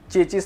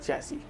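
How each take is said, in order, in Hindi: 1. यह 'chechis' बोला जाता है, जो s ध्वनि पर खत्म होता है। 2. यह 'chaissee' बोला जाता है, जो ee ध्वनि पर खत्म होता है। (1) "इसका मतलब होता है चेचिस नहीं होता" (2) "इसका मतलब होता है चैसी"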